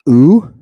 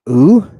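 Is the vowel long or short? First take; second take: long; long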